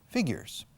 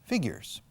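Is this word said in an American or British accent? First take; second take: American; American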